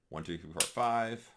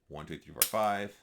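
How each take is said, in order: Both takes have the same delivery.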